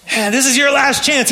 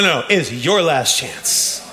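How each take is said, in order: First: Mock villain threat. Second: Low, slow stress on your in it's your last chance; weighty correction. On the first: Pastor mimicking the film villain, high and mocking. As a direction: ham up the villain. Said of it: "quoting the film villain". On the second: Shown as a demonstration. Pastor recasting the villain's line, low and slow. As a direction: lean hard on your, slowly. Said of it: "correcting himself".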